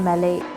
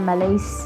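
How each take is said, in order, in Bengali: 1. নামটার শেষে কোনো s ধ্বনি নেই। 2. নামটার শেষে স্পষ্ট s ধ্বনি আছে। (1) "কিন্তু আসলে উচ্চারণটা হচ্ছে ম্যালেই" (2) "আমি প্রথমে বলছিলাম ম্যালেইস"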